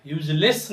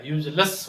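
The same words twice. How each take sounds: First: "यूजलेस" ending in a clear "less"; wrong pronunciation. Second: "यूजलेस" ending in schwa "luss"; correct pronunciation. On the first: Teacher showing the error, "यूजलेस" as "yooj-less". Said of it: "यूजलेस नहीं हो गया". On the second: Teacher correcting it, "यूजलेस" as "yooj-luss". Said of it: "इसे यूजलेस पढ़ते हैं". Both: Shown as a demonstration.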